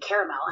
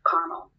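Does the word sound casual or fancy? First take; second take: fancy; casual. First: The word is said in a posh, fancy way. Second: The word is said in a plain, casual way. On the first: It matches a formally dressed figure. "Winnie the Pooh with the suit" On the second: It matches a casually dressed figure. "next to the one with the small shirt says caramel"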